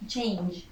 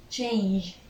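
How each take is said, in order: Both takes have the same delivery.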